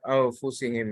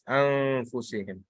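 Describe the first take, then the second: First: The n sound before the f is dropped. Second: The n sound before the f is pronounced. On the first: The speaker calls it wrong. "it cannot be af, af, afu, au, anfusihim. Yeah, it's that's that's uh, not correct" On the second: The speaker calls it right. "It's anfusihim. That's the correct way to pronounce"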